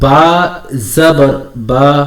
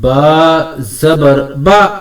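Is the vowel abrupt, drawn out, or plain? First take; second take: plain; abrupt. First: The vowel is short and even, without force. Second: The vowel is pushed out with an abrupt jolt. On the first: The speaker calls it right. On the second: The speaker calls it wrong.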